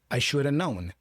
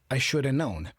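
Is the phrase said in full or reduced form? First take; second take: reduced; reduced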